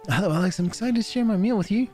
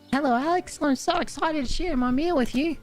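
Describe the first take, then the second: First: It is said in the speaker's normal voice. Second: It is said in Daisy's character voice.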